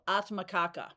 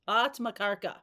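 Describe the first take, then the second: First: The word ends in kaka, with no r sound. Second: The word ends in karka, with an r sound. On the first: The speaker calls it wrong. "not Kaka" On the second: The speaker calls it right. "Atmakarka, not Kaka"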